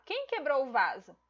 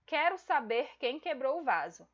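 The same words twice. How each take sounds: First: A questioning "Quem" opening a direct question; direct question tune. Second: A statement that falls to the end, "Quero" in front; indirect question tune. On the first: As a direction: ask it as a real direct question, leaning on "Quem". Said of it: "Percebem a entonação da voz?". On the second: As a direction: say it like a flat demand, no question lift. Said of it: "A entonação de voz é diferente". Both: Shown as a demonstration.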